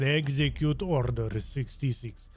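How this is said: It is said with a Russian accent.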